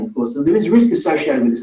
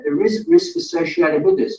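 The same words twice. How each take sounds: First: Said in the usual way. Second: "risk" hit firmly, whole line pitched higher; a clear warning with "risk" punched; stress on risk. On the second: Shown as a demonstration. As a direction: lean hard on "risk" so it lands. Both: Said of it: "I want you to be very clear".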